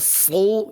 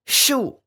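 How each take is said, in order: First: It starts with an emphatic, heavy s sound. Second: It starts with a sh sound. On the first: The speaker calls it right. "Harusnya so" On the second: The speaker calls it wrong. "dibaca shu"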